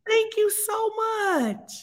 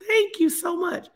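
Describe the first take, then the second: First: Touched thanks. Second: Said in the usual way. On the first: Real, not acted. Touched thanks, then repeated.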